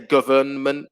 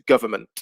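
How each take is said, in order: First: The N in the middle is pronounced. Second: The N in the middle is silent. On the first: The speaker calls it wrong. "we don't say government" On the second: The speaker calls it right. "So the N disappears. It becomes government"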